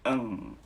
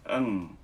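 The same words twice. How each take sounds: First: The hum resonates forward in the nasal bone. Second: The hum resonates forward in the nasal bone.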